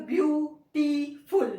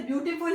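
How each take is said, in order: First: "beautiful" slowly in three separate, punched parts; split into syllables. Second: Said in the usual way. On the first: Shown as a demonstration. Teacher showing three syllables, "beautiful" said part by part. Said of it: "इसके भी तीन हिज्जे". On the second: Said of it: "ये भी तीन syllable वाला".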